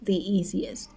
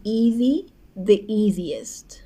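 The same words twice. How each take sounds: First: Said in the usual way. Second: The easiest drawn out very slowly, every syllable clear; teacher modelling the easiest slowly; slow demo. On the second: Shown as a demonstration. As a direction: spell out the easiest slowly for the class. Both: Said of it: "آخر واژهٔ ای اس تی".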